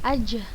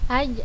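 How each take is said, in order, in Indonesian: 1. Konsonan akhir seperti j dalam bahasa Indonesia. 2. Konsonan akhir tidak seperti j dalam bahasa Indonesia.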